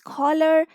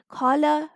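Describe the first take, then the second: First: The ending has an r sound, American style. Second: The ending is a plain schwa, British style.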